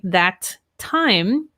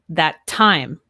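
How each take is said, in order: First: Both T sounds are pronounced separately. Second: The first T is dropped into the next. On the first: The speaker calls it wrong. "I would not say that time" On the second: The speaker calls it right. "I would say that time"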